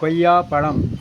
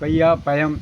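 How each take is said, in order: First: The second word has a retroflex 'zh' sound. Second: The second word has a plain 'y' sound. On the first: The speaker calls it right. "கொய்யா பழம் என்று சொல்வதற்கு" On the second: The speaker calls it wrong. "கொய்யா பயம் என்று சொல்லுகிறான்"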